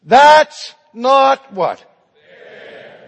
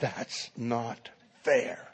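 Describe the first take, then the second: First: Loud, high, drawn-out outcry; crying out in protest. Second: Restrained anger, low and slow; angry. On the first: Students protesting their grades with one voice, crying out. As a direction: belt out the protest slowly. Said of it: "they cried out in protest". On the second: Angry student repeating his protest to the professor, restrained. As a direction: spell out the grievance softly, word by word. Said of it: "And now he's angry". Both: Acted.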